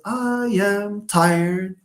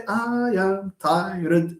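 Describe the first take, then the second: First: Chanted with "tired" as one held beat; tired as one syllable. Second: Slow chant breaking "tired" into tai-red; mock the mistake, "tired" in two beats; tired split in two. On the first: Teacher correcting Sukaina's count, "tired" sung as one syllable. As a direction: draw out "tired" without splitting it. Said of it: "tired is one syllable". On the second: Teacher showing students what not to say, "tired" split in two. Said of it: "Don't say". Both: Shown as a demonstration.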